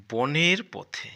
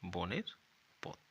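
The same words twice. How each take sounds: First: Slow, loud, drawn-out title read; reading aloud. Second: Said in the usual way. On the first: Shown as a demonstration. Teacher reading the lesson title to pupils, slow and loud. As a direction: announce the title slowly to the class. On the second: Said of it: "মানে এটা হলো একটি".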